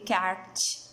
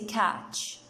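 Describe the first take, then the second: First: The T sound is clearly pronounced. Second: The T sound is left silent. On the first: The speaker calls it wrong. "We don't say catch" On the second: The speaker calls it right. "T is silent. We say catch"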